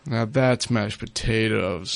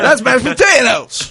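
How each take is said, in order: First: It is said in a gloomy, depressed tone. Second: It is said in an upbeat, cheerful tone.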